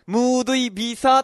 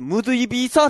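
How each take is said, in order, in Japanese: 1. 最後の'sa'は長く伸ばす。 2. 最後の'sa'は短く切る。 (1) "いや、違う違うって言われた" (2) "これは伸ばさない"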